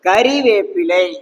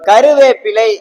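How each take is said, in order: First: The second syllable has an 'i' vowel. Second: The second syllable has a 'u' vowel. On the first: The speaker calls it right. "அது வந்து கறிவேப்பிலை" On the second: The speaker calls it wrong. "கருவேப்பிலை அப்படின்னு நம்ம சொல்றோம்"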